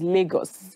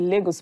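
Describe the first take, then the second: First: It is said the local Nigerian way. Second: It is said the common foreign way. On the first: This is how locals say it. The speaker calls it right. "the correct pronunciation is" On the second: This is how outsiders usually say it. The speaker calls it wrong. "That's what you people say"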